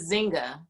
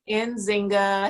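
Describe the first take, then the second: First: The name starts directly with a Z sound. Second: The name starts with an N sound before Z. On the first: The speaker calls it wrong. "Do you not pronounce the N?" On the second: The speaker calls it right. "We say the N"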